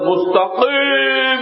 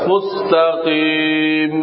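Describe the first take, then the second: First: The vowel before the final 'm' is drawn out. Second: The vowel before the final 'm' is kept short. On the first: The speaker calls it wrong. "এরকম বলা যাবে না" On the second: The speaker calls it right. "কি বলতে হবে?"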